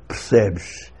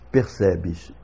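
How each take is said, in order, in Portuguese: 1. A primeira e a última vogais quase desaparecem. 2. As três vogais são claramente ouvidas. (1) "em Portugal é corrente a pronúncia percebes, em que nós temos uma primeira sílaba com a vogal quase totalmente desaparecida" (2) "nós outros brasileiros pronunciamos percebes, e as três vogais se ouvem"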